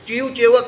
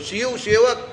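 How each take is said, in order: First: Both words begin with a 'ch' sound. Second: The words begin with 'sh' and 's' sounds. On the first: This is how the local people say it. The speaker calls it wrong. "પણ તમારા વાળા ચીવ ચેવક" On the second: This is the standard way to say it. The speaker calls it right. "શિવમાં પેલો ઉપર મીંડાવાળો શિવ છે"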